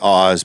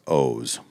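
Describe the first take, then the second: First: The vowel is a short o sound. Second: The vowel is a long o sound. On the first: This is how most people guess the name. The speaker calls it wrong. "Everybody would say Oz" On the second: This is how the owner says the name. The speaker calls it right. "for a long O"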